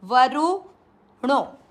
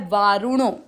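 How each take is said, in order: First: वरुणो said very slowly with a short u in रु. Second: वारुणो with a long aa in वा; वारुणो, open long aa at the start. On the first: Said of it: "रू की मात्रा यहाँ पर है छोटी". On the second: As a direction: stretch the वा in वारुणो. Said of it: "यहाँ मात्रा का ध्यान रखना है". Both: Shown as a demonstration.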